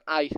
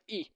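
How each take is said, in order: First: The letter is said like 'eye'. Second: The letter is said like 'ee'. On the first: This is how English speakers name the letter. "U S sama U K mengatakan I" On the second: This is how Indonesians name the letter. "kalau di Indonesia kita mengatakan I"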